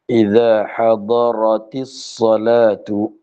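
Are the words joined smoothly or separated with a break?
joined. The words are joined smoothly without a break.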